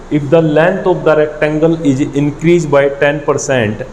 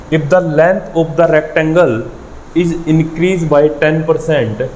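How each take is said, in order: The two takes are said the same way.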